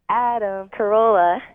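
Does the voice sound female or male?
female. It is said in a put-on female voice.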